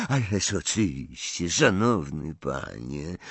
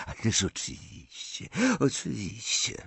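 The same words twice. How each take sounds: First: Said in the usual way. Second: Softer, half-voiced mumble; muttered. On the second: A narrator's reading. Bordzin bowing to Malfoy, muttering softly. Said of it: "mruknął Bordzin".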